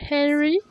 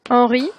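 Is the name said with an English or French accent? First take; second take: English; French. First: The name is said with an English pronunciation. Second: The name is said with a French pronunciation.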